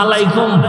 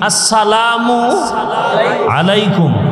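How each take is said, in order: First: The greeting is clipped into a slurred short form. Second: The greeting is said fully with every syllable. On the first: The speaker calls it wrong. "মালাইকুম কি?" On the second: The speaker calls it right. "শুদ্ধ করে সালাম দিলে"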